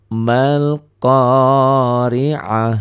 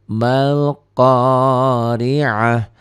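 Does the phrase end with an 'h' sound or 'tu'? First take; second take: h; h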